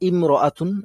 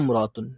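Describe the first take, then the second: First: The opening 'i' vowel is pronounced. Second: The opening 'i' vowel is dropped. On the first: "যেমন হচ্ছে ইমরাতুন" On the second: "এটা জাস্ট লিখায় আসছে আর পড়ায় আসে নাই"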